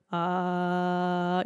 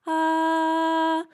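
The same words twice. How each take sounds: First: Sung low ah as a demo; low note. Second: A high sung ah, much higher; high note. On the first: Voice coach showing a low note. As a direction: hold a low ah to show short vocal cords. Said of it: "So when we're in a low note". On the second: Voice coach demonstrating a high note. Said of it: "than when you're in a high note". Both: Shown as a demonstration.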